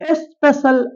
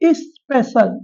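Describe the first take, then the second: First: The first vowel is not a short i. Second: The first vowel is a short i. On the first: The speaker calls it wrong. "அல்ல" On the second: The speaker calls it right. "Short இ vowel"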